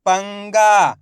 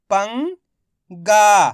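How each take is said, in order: First: पंगा joined, loud long "गा" falling; blended whole word. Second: पंगा in two parts, "पं" rising, pause, loud "गा"; very slowly sound out पंगा piece by piece; split into syllables. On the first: Teacher showing learners the result, पंगा blended together. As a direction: say पंगा as one word without a break. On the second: Teacher breaking पंगा down for learners, syllable by syllable. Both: Shown as a demonstration. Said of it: "इनको आपस में मिला के पढ़ना है".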